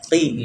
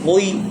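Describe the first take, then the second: First: The q is followed by a plain i vowel. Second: The q is followed by a rounded oi vowel. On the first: The speaker calls it right. "qa dibaca qi" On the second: The speaker calls it wrong. "Tidak perlu kita membacanya qoi"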